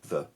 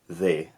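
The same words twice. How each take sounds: First: The word is said in its weak form. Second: The word is said in its full form.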